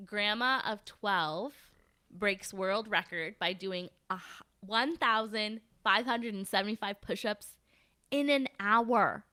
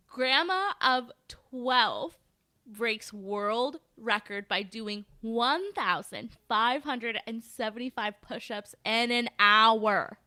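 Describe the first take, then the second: First: Measured headline reading. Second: Very slow headline, figures spelled out clearly; slow emphatic repeat. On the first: Host reads a record-breaking grandma headline to co-host, measured headline read. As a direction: read out the headline slowly, phrase by phrase. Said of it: "here's the headline". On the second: Repeating the headline for an astonished co-host, slow and emphatic. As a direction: draw out each phrase so the number lands. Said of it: "Wait, say that number again". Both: Shown as a demonstration.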